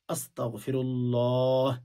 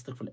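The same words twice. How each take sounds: First: It is said slowly and carefully. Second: It is said fast and carelessly.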